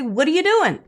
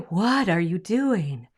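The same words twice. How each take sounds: First: 'What' starts with a plain w sound. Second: 'What' starts with a breathy h sound. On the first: The speaker calls it right. "We say, ... So we ignore the H" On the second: The speaker calls it wrong. "We don't say"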